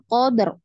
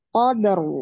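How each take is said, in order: First: The final r is cut off abruptly. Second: The final r flows on smoothly. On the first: The speaker calls it wrong. "Jangan qadar" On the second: The speaker calls it right. "Ro itu ada tawasud ya atau bainiyah"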